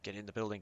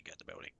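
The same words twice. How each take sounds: First: Said in the usual way. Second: Fading to a soft whisper. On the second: Real, not acted. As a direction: whisper it under your breath. Repeated order fading out.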